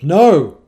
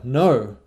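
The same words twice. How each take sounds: First: The word is said very loud and intense. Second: The word is said moderately loud.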